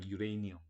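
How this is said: It is said as English 'yu-ray-ni-um'. "유레이니엄, 뭐 이런 느낌으로 발음하더라고요"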